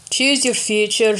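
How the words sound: It is said in a Scottish accent. The speaker calls it right.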